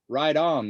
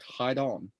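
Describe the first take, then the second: First: It is said in a plain accent. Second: It is said in a Brazilian accent.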